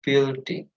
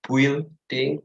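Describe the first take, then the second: First: Building said bil-ding, U silent; right pronunciation. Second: Building with a U sound, bwilding; wrong pronunciation. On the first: Teacher models the right way: building, bil-ding. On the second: Teacher shows the wrong way: building with a U. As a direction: say building as bwil-ding. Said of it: "do not say building". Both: Shown as a demonstration.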